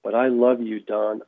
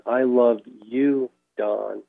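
First: Said in the usual way. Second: Slow, lightly tender retelling of a gentle voice; gentle, loving. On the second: Retold or imitated. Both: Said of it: "It was a gentle, awesome, loving, kind voice".

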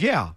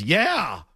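First: Said in the usual way. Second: Drawn-out, sceptical mock agreement. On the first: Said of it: "And then the Bengals guy mockingly says". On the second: Bengals guy answering the Patriots cameraman's excuse, mocking. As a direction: stretch it out, mockingly imitating disbelief. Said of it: "the Bengals guy mockingly says".

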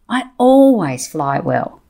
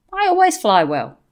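First: Slow, stress on always; a slow, firm affirmation with always stressed; emphatic mantra. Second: Calm and matter-of-fact; understated calm reply. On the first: Real, not acted. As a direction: lean hard on always, slowly. Repeats her mantra with conviction. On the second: Retold or imitated. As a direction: say it evenly, giving her nothing. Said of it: "I just calmly said".

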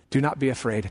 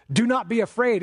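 First: Said in the usual way. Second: High, firm stress on "Do not be afraid"; "Do not be afraid" punched out as a command; emphatic command. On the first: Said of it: "This word is almost angelic". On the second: Acted. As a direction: deliver "Do not be afraid" as a raised-pitch order. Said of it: "is a command, and it's doubly emphatic".

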